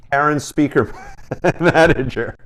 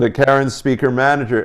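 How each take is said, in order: First: Cracking up before "Manager"; breaking into laughter. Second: Said in the usual way. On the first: Real, not acted. Host naming the guest's Karen pedal, breaking into laughter. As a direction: try to say the name and laugh midway. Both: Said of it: "I can't say that without laughing".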